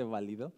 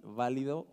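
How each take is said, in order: First: "válido" said as ba-LI-do, stress on the middle syllable; stress on second syllable. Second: "válido" said as BÁ-li-do, stress on the opening syllable; stress on first syllable. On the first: Preacher unsure how the word is said, stress on second syllable. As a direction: say "válido" with the weight on LI. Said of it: "No sé la verdad si se dice". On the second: Preacher trying the other pronunciation, stress on first syllable. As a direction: say "válido" with the weight on VÁ. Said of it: "si se dice". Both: Shown as a demonstration.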